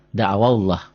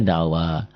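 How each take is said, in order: First: "Da'awallah" run together with a short wa. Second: "da'awa" with the final wa drawn out; stopped long wa. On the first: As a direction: keep wa short in "Da'awallah", straight into the double l. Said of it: "Wa-nya jadi pendek". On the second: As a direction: stretch the last vowel of "da'awa" at the stop. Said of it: "Kalau dihentikan". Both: Shown as a demonstration.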